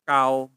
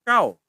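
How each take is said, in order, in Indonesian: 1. Suku kata itu diucapkan dengan nada lebih rendah. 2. Suku kata itu diucapkan dengan nada lebih tinggi.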